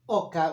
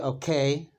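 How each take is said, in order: First: The word ends in a plain 'ah' sound. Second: The word ends in an 'ay' sound. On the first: This is the common everyday form in Argentina. "I said oka on purpose because it's very uh, um, usual that i- in Argentina" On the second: This form is also used but is less common. "We also say okay"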